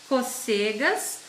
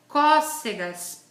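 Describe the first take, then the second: First: The first vowel is said without the accent. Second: The first vowel is said with the accent. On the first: "eu vou ler sem pronunciar o acento agudo" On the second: "leia outras palavras com esse acento"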